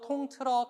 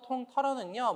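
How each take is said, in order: First: The second syllable has the vowel eu. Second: The second syllable has the vowel eo. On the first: The speaker calls it right. "통틀다만 있어요" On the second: The speaker calls it wrong. "통털다란 말이 아예 없어요"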